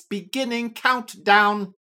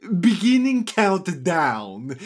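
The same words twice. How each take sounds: First: Loud, level machine countdown; a computer alarm announcing; robotic voice. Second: Booming, slow countdown announcement; grand riddle-master starts the clock; Sphinx voice. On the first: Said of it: "a robotic voice says". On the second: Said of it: "he says". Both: A narrator's reading.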